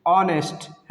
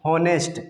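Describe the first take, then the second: First: ऑनेस्ट starting on the vowel, no h; silent h. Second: हॉनेस्ट with an audible h at the start; h wrongly sounded. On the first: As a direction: say ऑनेस्ट as "on-est", h dropped. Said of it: "इसको बोलते हैं ऑनेस्ट". (ऑनेस्ट में एच silent) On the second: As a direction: mispronounce it as हॉनेस्ट, h pronounced. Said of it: "बिल्कुल गलत sound है". (हॉनेस्ट, एच का गलत उच्चारण) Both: Shown as a demonstration.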